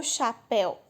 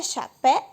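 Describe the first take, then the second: First: "chapéu" with "péu" as one joined syllable; "chapéu" in two beats, falling at the end. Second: "chapéu" broken into cha, pé, u; questioning three-beat split of "chapéu"; three split syllables. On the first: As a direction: say "chapéu" as cha-péu, u glued on. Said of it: "Será que é chapéu". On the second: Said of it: "Como é que é?". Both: Shown as a demonstration.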